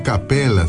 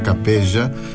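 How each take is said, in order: First: The double L is said as a plain L. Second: The double L is said as a zh sound. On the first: The speaker calls it right. "Eu vou dizer Capela" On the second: The speaker calls it wrong. "acho que não se pronuncia Capeja"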